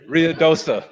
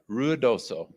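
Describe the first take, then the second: First: The name ends with an 'ah' vowel. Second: The name ends with an 'oh' vowel. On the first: This is the habitual, mistaken way of saying it. The speaker calls it wrong. "My whole life, I've always said Ruidosa" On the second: This is the correct name of the city. The speaker calls it right. "So I've really worked on that"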